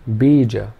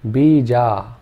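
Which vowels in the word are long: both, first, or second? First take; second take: first; both. First: Only the first vowel is long. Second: Both vowels are long. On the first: "if the first vowel sound was long" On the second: "If we made both the vowel sounds long"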